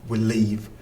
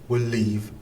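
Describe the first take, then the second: No difference in how they are said.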